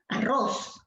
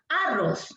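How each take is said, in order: First: The stress is on the last syllable. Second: The stress is on the first syllable.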